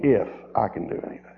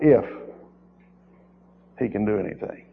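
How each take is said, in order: First: Quick dismissive if; mimicking the doubter, quickly; mock doubtful quote. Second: Mock doubtful if he can; quietly mimicking a doubter; doubtful mimic. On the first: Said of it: "What do you mean". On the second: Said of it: "that's a wrong approach with the Lord".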